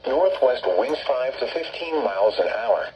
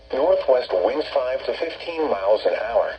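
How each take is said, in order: Both takes have the same delivery.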